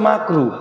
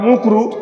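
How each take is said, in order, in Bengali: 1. প্রথম স্বরবর্ণটি a-এর মতো শোনায়। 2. প্রথম স্বরবর্ণটি u-এর মতো শোনায়। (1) "শব্দটা হচ্ছে মাকরু" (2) "আসলে শব্দটা ঠিক করেও বলে না"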